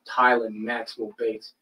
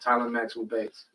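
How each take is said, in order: First: The name is said in an irritated, sarcastic tone. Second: The name is said in a plain, sincere tone.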